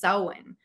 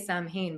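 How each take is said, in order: First: It is said the original Gaelic way. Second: It is said the common English-reading way. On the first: This is how it is pronounced in Gaelic. The speaker calls it right. "but apparently it's Samhain" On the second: This is how many people say it. The speaker calls it wrong. "Some people say Sam Hain"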